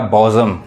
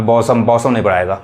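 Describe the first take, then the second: First: बॉजम with a buzzing z sound; बॉजम said carefully with z; correct pronunciation. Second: बॉसम with a hard s sound, marked as wrong; बॉसम said with s, not z; wrong pronunciation. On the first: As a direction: teach बॉजम, the s voiced as z. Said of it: "यहाँ पे जो पढ़ाएगा बॉजम". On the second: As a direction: say बॉसम with a plain s, the mistake. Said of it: "तो अब यहाँ पे गलत हो जाएगा". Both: Shown as a demonstration.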